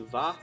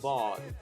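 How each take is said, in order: First: The word ends on the vowel, consonant dropped. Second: The word ends with a clear final consonant. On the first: "many people just say va" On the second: "In Swedish is vad"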